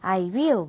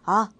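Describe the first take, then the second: First: Both words are said fully and separately. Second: It shrinks to a quick single vowel sound. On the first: "I will, we will 하면서 착각에 읽을 건 아니고요" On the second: "더 빨리 읽으면 아, 우 하면서 그냥 훅 지나가 버릴 거예요"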